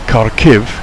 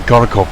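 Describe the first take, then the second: First: The name ends with an 'iv' sound. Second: The name ends with an 'ov' sound. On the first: This is how Ukrainian speakers say the name. "is the Ukrainian method of saying it" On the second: This is how Russian speakers say the name. "is a Russian pronunciation"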